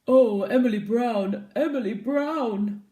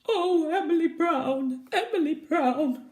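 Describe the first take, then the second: First: It is said in a low monster voice. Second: It is said in a weepy, crying voice.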